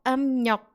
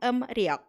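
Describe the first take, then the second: First: The second syllable starts with an n sound. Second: The second syllable starts with an r sound. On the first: The speaker calls it right. "Lebih mudah dilafalkan atau dibaca yang emnyok" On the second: The speaker calls it wrong. "daripada yang emriok"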